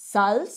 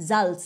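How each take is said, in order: First: Salz with a hissed s at the start; mispronounced Salz. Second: Salz with a voiced j-like z at the start; corrected Salz. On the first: Real, not acted. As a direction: say Salz starting like English "salt". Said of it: "আমি ভুলভাল উচ্চারণ করি". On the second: Shown as a demonstration. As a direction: start Salz on a buzzing Bengali j sound. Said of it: "বর্গীয় জের মতো হবে".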